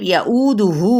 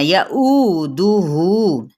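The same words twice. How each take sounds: First: यऊदुहु read with an added वू sound, rising; the mistaken यऊदुहु, rising at the end; wrong reading. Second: यऊदुहु very slow, with the वाव मद्दा drawn out; correct stretched reading. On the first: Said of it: "वू नहीं पढ़ना". (यऊदुहु गलत ढंग से, वू के साथ) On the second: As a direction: slowly stretch the दुहु in यऊदुहु, falling. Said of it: "वाव मद्दा के बराबर इसको खींचते हुए". (यऊदुहु धीरे से, वाव मद्दा को लंबा खींचकर) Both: Shown as a demonstration.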